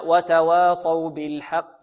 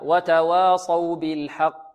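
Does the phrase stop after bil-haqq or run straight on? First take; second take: runs on; stops. First: The phrase runs into the next words without stopping. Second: The phrase stops on the final q of haqq. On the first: The reciter joins the verse to the next one. "وإذا وصلنا" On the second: The reciter pauses at the end of the verse. "إذا وقفنا على كلمة حق ننطقها هكذا"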